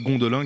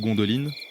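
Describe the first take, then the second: First: The name ends in a nasal vowel. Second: The name ends with a clear 'n' sound. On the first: "Gondolin qui est ou Gondoline" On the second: "je pense que c'est Gondoline parce que là c'est de l'elfique"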